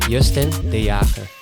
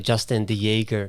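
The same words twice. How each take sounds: First: The name is pronounced with Dutch sounds. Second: The name is pronounced with English sounds. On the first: "the proper like Dutch pronunciation" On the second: "I always say Justin de Jager"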